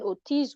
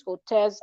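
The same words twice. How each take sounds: First: Ortiz said as "or-TEEZ", long ee; tentative guess at the name Ortiz with a long ee; trying out Ortiz, the ee version; unsure name. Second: Ortez said as "or-TEZ", short e; second guess, Ortez with a short e; trying the other spelling, Ortez; alternative pronunciation. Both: Shown as a demonstration. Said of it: "something around Ortiz, Ortez".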